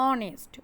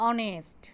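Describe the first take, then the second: Both takes have the same delivery.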